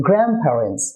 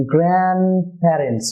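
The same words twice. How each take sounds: First: গ্র্যান্ডপ্যারেন্টস joined as "GRAM-parens"; N becomes M. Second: গ্র্যান্ডপ্যারেন্টস slowly as "gran-parens", N kept; slow গ্র্যান্ডপ্যারেন্টস, pausing after "gran"; silent D and T. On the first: Teacher applies the second rule for viewers, N as M. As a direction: say গ্র্যান্ডপ্যারেন্টস with M before P, no D or T. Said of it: "এন এর উচ্চারণ হয়ে যায় এম". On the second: Teacher applies the first rule for viewers, D and T dropped. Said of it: "remove হয়ে যাবে". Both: Shown as a demonstration.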